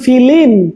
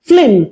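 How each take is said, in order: First: An i vowel is inserted between f and l. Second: The f and l run together without a vowel. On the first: "লয়ের সাথে ই উচ্চারণ হচ্ছে" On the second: "লয়ে হসের মতো উচ্চারণ হচ্ছে, এখানে কোনো স্বর নাই"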